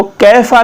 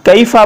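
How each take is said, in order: First: कैफा with a flattened single "e" vowel, keh-fa; mispronunciation demo. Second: कैफा with a clear "ay-ee" glide, kay-fa; correct Quranic pronunciation. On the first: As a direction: drop the glide in कैफा. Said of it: "कैफा नहीं पढ़ना". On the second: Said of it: "कैफा पढ़ना है इसको". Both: Shown as a demonstration.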